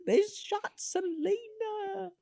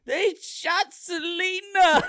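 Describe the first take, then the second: First: High, very slow, held-back mock scream; small drawn-out imitation of a scream; mock scream, softened. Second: High, loud, drawn-out mock wail; hammed-up scream, slow and high-pitched. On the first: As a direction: wail it softly, stretching every word. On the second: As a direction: scream the news in exaggerated horror. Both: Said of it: "comes into the gym and screams".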